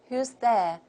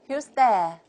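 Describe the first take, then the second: Both takes have the same delivery.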